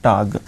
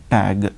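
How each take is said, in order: First: Tag with an open "ah", "tahg"; German tag, long A as in father; German pronunciation. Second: Tag with a flat "a" as in cat; English tag, rhyming with bag; English pronunciation. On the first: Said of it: "the same thing in German". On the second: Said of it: "Don't read like this English". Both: Shown as a demonstration.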